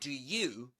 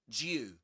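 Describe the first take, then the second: First: Both words are said fully and separately. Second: The two words blend into one short syllable. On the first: "you can say do you" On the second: "That's connected speech. That's more common"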